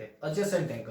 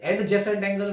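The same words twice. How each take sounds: First: The d sound is left silent. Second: The d sound is pronounced clearly. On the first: The speaker calls it right. "एडजेसेंट angle बोलते हैं" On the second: The speaker calls it wrong. "एडजेसेंट angle नहीं बोलते"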